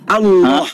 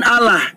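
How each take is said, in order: First: The L is heavy and thick. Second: The L is light and thin. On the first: The speaker calls it right. "lam itu dibaca tebal kalau dia di fathah" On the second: The speaker calls it wrong. "bukan Allah"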